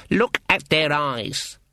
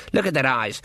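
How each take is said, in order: First: Each word of "Look at their eyes" drawn out slowly; slow, weighty emphasis on "Look at their eyes"; insistent repeat. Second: Said in the usual way. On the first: Acted. Granny repeats warning urgently.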